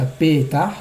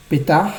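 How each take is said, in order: First: "Petah" stressed on the first syllable, PE-tah; "Petah" accented on the first syllable, the wrong way. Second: "Petah" stressed on the last syllable, pe-TAH; "Petah" accented at the end; final stress. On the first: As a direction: put the weight on PE of "Petah". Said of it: "et pas Petah". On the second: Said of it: "donc Milera". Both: Shown as a demonstration.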